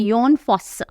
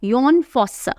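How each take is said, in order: First: The first name begins with a y sound. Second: The first name begins with a y sound.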